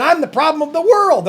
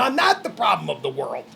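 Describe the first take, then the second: First: High, rising mimicry of an accuser; mock accusation. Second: Low, soft, settled denial; firm denial. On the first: Fed-up man echoes what he has been told, indignant. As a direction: throw the blame out high and indignant. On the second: Real, not acted. Fed-up man answers his accusers, low firm denial. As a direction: drop low and quiet on the denial.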